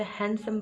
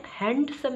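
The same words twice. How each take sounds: First: हैंडसम with silent D, HAN-sum; correct pronunciation. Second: हैंडसम with a clear D, HAND-sum; wrong pronunciation. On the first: Teacher corrects learners, demonstrating the right way. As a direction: drop the D from हैंडसम. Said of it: "आप इसे हैंडसम बोलेंगे". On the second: Teacher corrects learners, demonstrating the wrong way. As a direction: stress the unwanted D in हैंडसम. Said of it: "हैंडसम नहीं बोलेंगे". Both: Shown as a demonstration.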